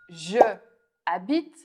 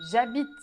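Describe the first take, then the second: First: Both vowels are said separately. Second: The first vowel drops and the words join.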